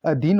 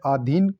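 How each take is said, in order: First: Said in the usual way. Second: अधीन with a long aa at the start; mispronounced अधीन. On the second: Shown as a demonstration. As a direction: say अधीन as "aa-dheen". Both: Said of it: "अधीन नहीं होता".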